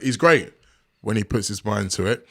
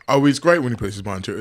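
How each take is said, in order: First: It is said in a pointed, deliberate way. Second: It is said casually, as a throwaway remark.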